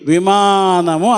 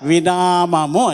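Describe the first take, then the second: First: The word is said as vimaanamu. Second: The word is said as vinaamamu. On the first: The speaker calls it right. "విమానము అనమని అడిగేవాళ్ళం" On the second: The speaker calls it wrong. "ఆ పిల్ల ఏం చెప్పేది తెలుసా? వినామము అనేది"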